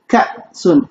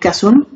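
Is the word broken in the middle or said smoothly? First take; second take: broken; smooth. First: The word has a sharp break in the middle. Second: The word flows smoothly without any break. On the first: "je casse le mot en deux en fait" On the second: "Au lieu de dire"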